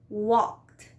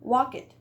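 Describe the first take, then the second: First: The ending adds no extra syllable. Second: The ending adds an extra syllable. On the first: The speaker calls it right. "we are not going to pronounce the E" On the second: The speaker calls it wrong. "we want to pronounce the E"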